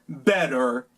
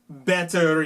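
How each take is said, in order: First: It has an American accent with a soft T. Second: It has a British accent with a crisp T. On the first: "en los Estados Unidos" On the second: "en Inglaterra y Australia"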